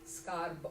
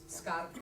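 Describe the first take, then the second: First: The final b is voiced before the vowel. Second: The final b is voiceless, sounding like p. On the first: A vowel follows the word. "I would say the B as a voiced consonant" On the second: The word ends the phrase. "B's turn into uh, unvoiced consonants um, at the end of words"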